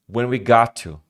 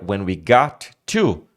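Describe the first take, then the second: First: The two T sounds merge into one. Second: Both T sounds are pronounced separately. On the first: "vai virar when we got to. Você esquece o, o T" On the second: "o trecho que seria"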